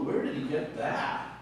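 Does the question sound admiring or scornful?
admiring. It sounds amazed and admiring. The listeners are impressed by his wisdom.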